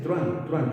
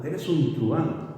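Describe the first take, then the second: First: Truán clipped into one syllable. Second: Truán split slowly, tru-án; two-syllable truán. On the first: Teacher demonstrates truán in one syllable. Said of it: "Tú no dices truán". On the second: Teacher models the everyday two-syllable truán. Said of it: "Tú dices truán". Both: Shown as a demonstration.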